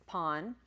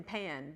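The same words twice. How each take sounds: First: "pon" with an open ah vowel; Greek reading. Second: "pan" with the flat English a; English reading. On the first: Teacher corrects the English reading, "pon" with open vowel. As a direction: say "pon" to rhyme with "on", not as English pan. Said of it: "for these purposes, it's pon". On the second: Teacher gives class the mistaken English reading, "pan" with English a. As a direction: say "pan" like the cooking pot. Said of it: "you would think you've written pan". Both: Shown as a demonstration.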